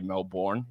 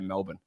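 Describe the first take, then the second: First: The R sound is pronounced in the word. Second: The R sound is dropped, giving a flat ending. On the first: The speaker calls it wrong. "you can't say Melbourne" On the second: The speaker calls it right. "Get rid of the R. It's just a flat Melbourne"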